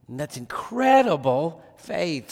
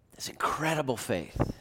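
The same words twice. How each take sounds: First: Said in the usual way. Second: A hushed, breathy whisper of "that's incredible faith"; whispered awe. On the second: Real, not acted. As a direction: breathe it out in wonder. Awed aside after quoting the thief.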